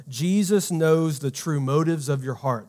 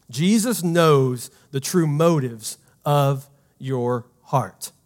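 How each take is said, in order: First: Said in the usual way. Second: Slow, every word spaced for note-taking; slow dictation pace. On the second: Shown as a demonstration. Pastor slowly dictates the key line to the congregation, slow and deliberate. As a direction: say it slowly so they can write it down. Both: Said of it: "and you can write this down".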